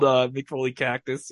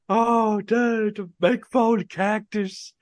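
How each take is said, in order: First: Said in the usual way. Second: Higher, slow raspy Texas drawl; imitating a raspy Texas wrestling legend, higher and slow; Terry Funk Texas accent. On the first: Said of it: "like that accent". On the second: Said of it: "like that accent that you would just hear".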